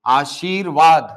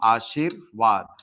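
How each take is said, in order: First: आशीर्वाद drawn out, र before वा; slow model pronunciation. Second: आशीर्वाद said slowly, low and drawn out; slow model pronunciation. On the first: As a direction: spell out आशीर्वाद slowly, louder. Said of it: "उच्चारण करोगे तो ये कुछ ऐसा होगा". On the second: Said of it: "ये शब्द का सही रूप है". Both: Shown as a demonstration.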